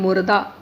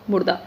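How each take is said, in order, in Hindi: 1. यह शब्द धीरे और आराम से बोला गया है। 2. यह शब्द जल्दी से बोला गया है। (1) "अगर वैसे बोलेंगे मुर्दा" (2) "जब हम किसी चीज़ को स्पीड से बोलते हैं"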